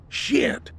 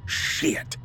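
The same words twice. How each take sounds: First: High-pitched, contained yell; yelled curse. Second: Hushed, bitter curse; spat curse. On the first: Shooter sees his round miss, yelled curse. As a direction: curse in a held-back yell. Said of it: "he yelled". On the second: Man learns his dogs ran off, spat curse. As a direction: spit it out under the voice. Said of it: "Glenn spat". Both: A narrator's reading.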